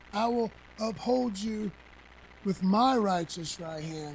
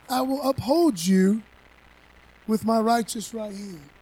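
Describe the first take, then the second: First: Said in the usual way. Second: Proclaimed. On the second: Shown as a demonstration. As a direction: declare it like a verdict.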